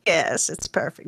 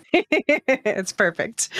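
First: Said in the usual way. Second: Laughing. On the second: Real, not acted. Laughing at the voice impression.

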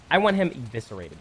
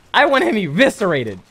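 First: Said in the usual way. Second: Louder, higher mock outrage. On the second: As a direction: play up the fake fury. Repeated louder after laughing.

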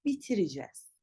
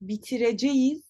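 First: Bitireceğiz as bi-ti-ri-jez; spoken contraction. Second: Bitireceğiz in full, bi-ti-re-je-yiz; written form. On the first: Teacher corrects, bitireceğiz contracted to bitiricez. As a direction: shorten bitireceğiz to bitiricez, falling. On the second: Teacher shows the wrong way, bitireceğiz as spelt. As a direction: sound out every syllable of bitireceğiz. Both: Shown as a demonstration. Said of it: "değil".

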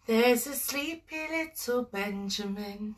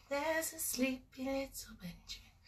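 First: Said in the usual way. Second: Soft lullaby whisper; whispering over a crib. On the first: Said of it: "We're gonna go". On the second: Shown as a demonstration. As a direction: breathe it like a sleeping baby is near. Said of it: "snuggling up to me".

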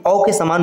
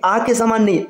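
First: औ said as a rounded "aw"; rounded AW sound. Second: आ said as a plain long "aa"; open AA sound. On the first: Teacher gives the right sound, औ as rounded "aw". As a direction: round the lips on औ. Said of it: "इसका उच्चारण औ के समान". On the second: Teacher rules out the wrong sound, आ as open "aa". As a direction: give आ an open, unrounded "aa". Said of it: "औ के समान होता है". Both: Shown as a demonstration.

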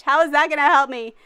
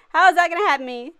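First: Exasperated. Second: Whiny fake sob; mock crying. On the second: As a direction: wail it like crying. Repeat with crying sound. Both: Real, not acted.

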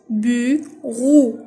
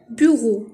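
First: "Bureau" loud, in two drawn-out halves; split into syllables. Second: Said in the usual way. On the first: Shown as a demonstration. Teacher cutting words into syllables, "Bureau" loudly split in two. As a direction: stretch "Bureau" into "bu", pause, "reau". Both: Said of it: "Je découpe les mots en syllabes".

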